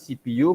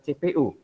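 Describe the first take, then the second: First: The letters are spoken with English letter names. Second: The letters are spoken with Indonesian letter names. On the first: The speaker calls it right. "Bacaannya C P U" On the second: The speaker calls it wrong. "bukan C P U"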